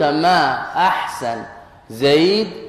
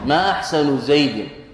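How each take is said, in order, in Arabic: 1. تنتهي الكلمة الوسطى بدون أي حركة. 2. تنتهي الكلمة الوسطى بضمة قصيرة. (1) "هكذا بالتسكين ما ظهرت المعاني" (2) "ما أحسن بالرفع"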